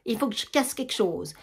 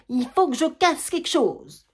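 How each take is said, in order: First: Said in the usual way. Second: Plus aigu, plus fort, lent et appuyé; rage qui éclate. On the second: Acted. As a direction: laisse exploser la colère, mot par mot. (Germaine, seule, laisse éclater sa rage, lente et forte)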